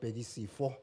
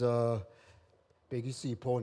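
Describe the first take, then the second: First: The 'ph' is said as an f sound. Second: The 'ph' is said as a p sound. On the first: The speaker calls it wrong. "not Bhekisipho. I know that they always get it wrong ... The PHO always translate to F" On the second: The speaker calls it right. "my name is"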